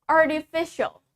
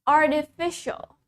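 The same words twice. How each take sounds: Both takes have the same delivery.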